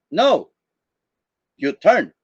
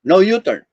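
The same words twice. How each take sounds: First: "No" alone, break, then "you turn"; long pause after NO. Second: "No U-turn" as one phrase, no pause; "No U-turn" unbroken. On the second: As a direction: run "No" straight into "U-turn". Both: Shown as a demonstration. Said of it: "depending on how you're going to say".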